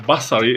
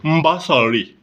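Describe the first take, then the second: First: The word begins with a plain b sound. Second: The word begins with a nasal mb sound. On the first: The speaker calls it right. "the word basari" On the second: The speaker calls it wrong. "he is pronouncing the word basari as mbasari"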